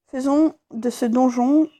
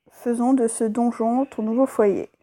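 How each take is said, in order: First: Slow, hesitant first read of "Faisons de ce donjon"; halting read. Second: Said in the usual way. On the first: Real, not acted. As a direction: stumble slowly through "Faisons de ce donjon". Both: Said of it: "j'ai pas l'habitude de lire".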